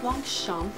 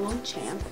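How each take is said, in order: First: The ending has a nasal vowel and no p sound. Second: The ending sounds like the English word champ. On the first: The speaker calls it right. "it's pronounced Longchamp" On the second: The speaker calls it wrong. "not Longchamp. When people say champ, that's not what it is"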